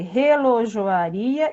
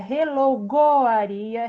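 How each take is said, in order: First: The middle consonant is a soft zh sound. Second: The middle consonant is a hard g sound. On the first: The speaker calls it right. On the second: The speaker calls it wrong.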